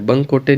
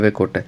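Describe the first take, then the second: First: It is said as one word, 'bankote'. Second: It is said as two words, 'va kote'. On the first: The speaker calls it wrong. "कुछ जो teachers है ना वो बंकोटे बोलते, बंकोटे नहीं" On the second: The speaker calls it right. "अच्छे से English में देखो, गोरे व कोटे"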